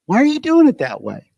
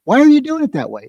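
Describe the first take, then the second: First: Irritated boss. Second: Higher, fast, exasperated demand; exasperated boss. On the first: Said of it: "this feeling would come in of". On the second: Carpenter boss snapping at a clumsy helper, higher and fast. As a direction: snap at the worker who botched it. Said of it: "even the tone of my voice when I said". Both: Retold or imitated.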